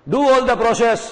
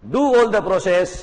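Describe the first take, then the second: First: All punched high and loud; "all" को ज़ोर से, ऊँचे स्वर में बोलें; stress on all. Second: "do" पर हल्का ज़ोर देकर बोलें; stress on do. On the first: ("all" पर ज़ोर) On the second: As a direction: do said firmly. ("do" पर ज़ोर) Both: Shown as a demonstration.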